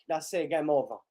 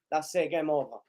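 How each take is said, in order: Both takes have the same delivery.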